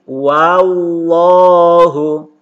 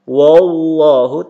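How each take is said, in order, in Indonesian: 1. Vokal pertama terbuka, terdengar seperti 'a'. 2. Vokal pertama dibulatkan, terdengar seperti 'o'. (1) "wa tetap dibaca wa" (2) "jangan dibaca wo"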